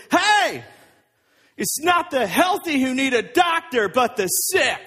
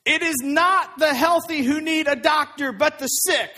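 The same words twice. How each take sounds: First: Acted yell out the window; raised, projecting mock yell; Jesus. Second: Firm, raised reading of a quoted saying; measured, emphatic quotation; scripture quote. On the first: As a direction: call out loudly so those outside can hear. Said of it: "he yells it out the window". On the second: A narrator's reading. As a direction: read the quote out firmly and clearly. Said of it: "Jesus said to them".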